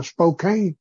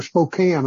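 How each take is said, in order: First: Spokane ending like "cane"; Spokane with long A. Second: Spokane ending like "can"; local pronunciation of Spokane. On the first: Preacher naming the city to his group, Spokane said with a long A. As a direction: say Spokane to rhyme with "rain". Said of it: "the way they pronounce it". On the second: Preacher correcting himself to the local way, Spokane with a short A. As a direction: say Spokane to rhyme with "pan". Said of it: "I think the way they pronounce it". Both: Shown as a demonstration.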